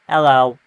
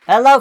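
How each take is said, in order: First: It is said in a robotic voice. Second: It is said in a normal voice. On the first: The speaker calls it right. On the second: The speaker calls it wrong.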